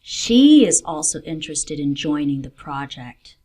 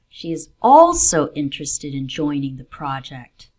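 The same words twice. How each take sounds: First: The stress falls on the word she. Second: The stress falls on the word also. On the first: This person, not another, is interested. "She, not another person" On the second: The project is one of several interests. "There are two things she's interested in, and the project is one of them"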